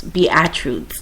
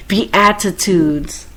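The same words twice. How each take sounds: First: "Beatitudes" run together as "be-at-roots"; slurred mispronunciation. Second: "Beatitudes" drawn out slowly, be-at-i-tudes; every vowel pronounced. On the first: Host retrying a tricky word, "Beatitudes" still slurred short. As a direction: trip over "Beatitudes", losing a syllable. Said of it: "my accents". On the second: Host correcting own slip, "Beatitudes" slow with all vowels. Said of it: "start to pronounce all the vowels". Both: Real, not acted.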